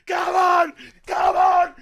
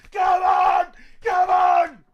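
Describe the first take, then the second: No difference in how they are said.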